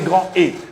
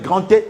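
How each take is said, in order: First: No T sound links the two words. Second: A T sound links the two words. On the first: The speaker calls it right. "il faudra le grand état avec un grand E" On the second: The speaker calls it wrong. "au lieu de dire grand état, grand état avec grand T"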